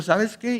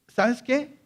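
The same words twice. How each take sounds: First: Said in the usual way. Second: "¿sabes qué?" snapped high with a rising end; mock harsh retort. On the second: Shown as a demonstration. Jesus answering the pleading woman, sharp rising retort. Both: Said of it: "No, no lo digo así".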